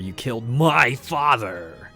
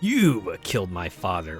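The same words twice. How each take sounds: First: The stress falls on the word my. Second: The stress falls on the word you.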